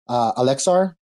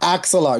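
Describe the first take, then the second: First: The name begins with the sounds alex. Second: The name begins with the sounds axel. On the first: The speaker calls it wrong. "I will say it wrong" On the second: The speaker calls it right. "There you go"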